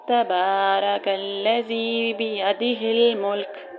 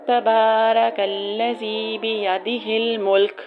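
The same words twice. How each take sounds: No difference in how they are said.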